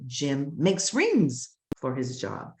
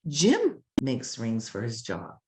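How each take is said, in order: First: The stress falls on the word makes. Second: The stress falls on the word Jim. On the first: "Or let's stress the verb" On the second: "Let's stress Jim, the noun"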